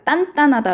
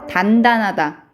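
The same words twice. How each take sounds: First: It begins with a tense, stiff consonant. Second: It begins with a plain, lax consonant. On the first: It sounds firmer and harder. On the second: It sounds less firm.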